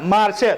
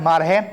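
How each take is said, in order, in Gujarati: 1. શબ્દમાં અંત પહેલાં 'sh' અવાજ છે. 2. શબ્દમાં અંત પહેલાં 'h' અવાજ છે. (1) "શ ને હ ઉચ્ચારવામાં આવે છે" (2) "મારશે તો કે મારહે"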